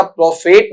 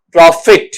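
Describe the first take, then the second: First: "प्रॉफेट" with a long "fate" ending; wrong pronunciation. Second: "प्रॉफिट" with a short "fit" ending; correct pronunciation. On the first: Teacher showing students the mistake, "प्रॉफेट" as pro-fate, wrong pronunciation. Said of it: "प्रॉफेट नहीं". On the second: Teacher correcting the reading, "प्रॉफिट" as pro-fit, correct pronunciation. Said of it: "इसे क्या पढ़ते हैं". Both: Shown as a demonstration.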